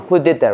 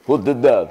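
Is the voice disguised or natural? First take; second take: natural; disguised. First: It is said in the speaker's natural voice. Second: It is said in a disguised, altered voice.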